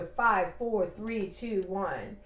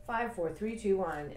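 First: Firm, even countdown with a fall on each number; counting down. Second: Calm countdown. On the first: Demonstrating the wake-up rule, counting down firmly. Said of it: "is it the five minute rule". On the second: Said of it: "that's the point of all this". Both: Shown as a demonstration.

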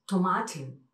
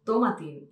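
First: TOMATIN as slow "to-MAH-tin"; middle-syllable stress. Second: TOMATIN as "TOH-ma-tin"; wrong first-syllable stress. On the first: Shown as a demonstration. Teacher corrects it, slow "to-MAH-tin". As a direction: stretch MA in TOMATIN. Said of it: "es Tomatin". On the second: Retold or imitated. Quoting Spaniards' habit, "TOH-ma-tin". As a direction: hit TO in TOMATIN.

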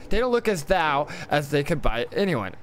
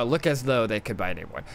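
First: "thou" said to rhyme with "now"; misread word. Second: Said in the usual way. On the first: Real, not acted. Misreads, then corrects himself.

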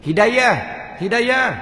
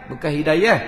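First: Hidayah tinggi dan kuat; correct hidayah. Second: Hidayah dengan da tebal; wrong hidayah. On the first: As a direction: sebut Hidayah betul. (Hidayah betul) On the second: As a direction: tunjuk hidayah salah. (hidayah salah) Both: Shown as a demonstration.

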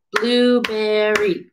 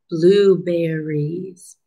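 First: "Blueberry" slow, in three even beats; syllable by syllable. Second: Said in the usual way. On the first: Shown as a demonstration. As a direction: chant "Blueberry" one syllable per clap. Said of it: "Get your hands ready". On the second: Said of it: "let's see how many syllables".

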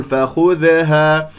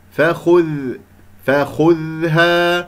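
First: فخذها with an extra little vowel after ذ; wrongly bounced dhal. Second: فخذها slowly, sound running through an unreleased ذ; flowing dhal. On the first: Teacher showing what not to say, echoing bounced ذ in فخذها. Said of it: "غير قلقلة، لا أقول فخذها". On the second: Teacher letting dhal be heard, slow sustained ذ in فخذها. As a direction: hold the ذ in فخذها with no bounce. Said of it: "أسمع صوت الذال كيف يجري فيها الصوت". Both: Shown as a demonstration.

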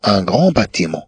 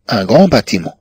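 No difference in how they are said.

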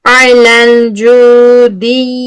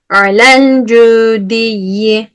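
First: Alel cüdiyyi with a long held nasal hum; wrong, held ghunna. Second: Alel cüdiyyi recited slowly, passing straight on with no held nasal; correct, no ghunna. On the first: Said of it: "Niye tuttuk onu?". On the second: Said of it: "Direkt geçtim gitti". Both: Shown as a demonstration.

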